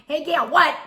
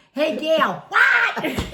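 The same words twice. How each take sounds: First: A high, loud laughing call of her name. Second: Calling out her name high and loud, laughing; loud yell. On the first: Friend repeating the loud call to the neighbour. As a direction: shout it again, half laughing. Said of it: "You're just going". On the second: Friend mock-yelling at a deaf neighbour, laughing. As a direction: yell her name like she can't hear. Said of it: "you're not even screaming". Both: Retold or imitated.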